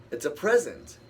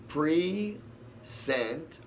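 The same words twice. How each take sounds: First: "present" stressed on the first syllable, falling; "present" said as PREZ-ent, like a gift; "present" as the noun, stress up front. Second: "present" stressed on the second syllable, rising; "present" said as pri-ZENT with a rising tune; "present" as the verb, stress on the end. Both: Shown as a demonstration. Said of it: "four words all wrapped up into the same phonetics".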